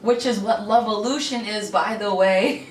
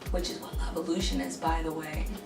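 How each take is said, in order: First: The phrase is said at a louder volume. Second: The phrase is said at a quieter volume. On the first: "I'm going to say it louder" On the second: "I don't know if you heard me"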